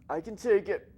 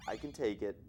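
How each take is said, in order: First: High, loud, put-on protest; mock hurt. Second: Said in the usual way. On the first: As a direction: insist in an exaggerated, raised voice, as a joke. Jokes about taking the criticism.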